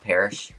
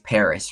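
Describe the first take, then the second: First: The name ends with an sh sound. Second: The name ends with an s sound. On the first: The speaker calls it wrong. "It's not Parish" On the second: The speaker calls it right. "I think it's Paris, right?"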